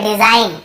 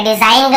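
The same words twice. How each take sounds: First: डिजाइन ending cleanly on n; correct silent g. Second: डिजाइन ग with a hard "ga" tacked on; wrong sounded g. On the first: Teacher gives the only right reading, डिजाइन without g. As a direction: say डिजाइन as "di-zain", no g. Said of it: "केवल डिजाइन". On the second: Teacher repeats the misreading for learners, डिजाइन ग with g sounded. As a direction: say डिजाइन ग as "di-zain-ga". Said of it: "ऐसे नहीं पढ़ रहे". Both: Shown as a demonstration.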